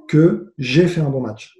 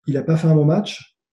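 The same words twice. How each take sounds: First: "j'ai" stressed, then a slow falling close. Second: "il a pas fait un bon match" left open on a rising tune; contrastive first half. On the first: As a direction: lean on "j'ai" and slow right down to land the contrast. Opposes own match to opponent's. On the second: Opposes opponent's match to his own. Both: Real, not acted.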